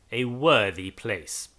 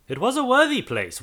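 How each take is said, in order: First: Grim irony. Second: Worthy lifted high and falling; ironic. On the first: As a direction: drag it out darkly. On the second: Narrator mocking the churchyard, worthy pitched high. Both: A narrator's reading.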